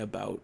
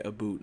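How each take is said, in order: First: The vowel sounds like the 'ow' in cow. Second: The vowel sounds like the 'oo' in boot. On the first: This is how the speaker really talks. The speaker calls it right. "like a normal person" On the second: This is how others think the speaker talks. The speaker calls it wrong. "I don't say about like"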